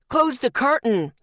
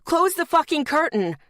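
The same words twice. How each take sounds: First: Louder barked order; shouted order. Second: Much higher, louder angry repeat; furious shout. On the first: Startled man in booth shouting at her, loud. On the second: Startled man in booth yelling again, furious. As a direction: blast it the second time. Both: Retold or imitated. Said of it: "the man shouted".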